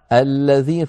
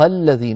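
First: The word begins with a clear glottal stop. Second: The word joins the previous one without a glottal stop. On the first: The word begins the speech after a stop. "فننطق الهمزة" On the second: The word is in the middle of speech. "لم ننطق همزة"

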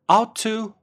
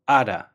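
First: Both words are said fully and separately. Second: The words blend into one reduced form.

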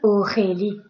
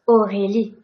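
First: The R is harsh and strongly rasped in the throat. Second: The R is soft with a small vibration. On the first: The speaker calls it wrong. "I am not saying Aurélie. If I say that, I am hurting my throat" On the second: The speaker calls it right. "It's a very small vibration"

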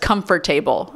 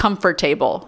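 First: It is said in an Indian accent. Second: The same.

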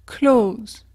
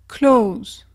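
No difference in how they are said.

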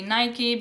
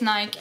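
First: Nike is said the American way. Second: Nike is said the European way. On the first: The speaker calls it right. "Americans say Nike because that's the correct way of saying it" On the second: The speaker calls it wrong. "We say it's Nike, and a lot of Europeans do"

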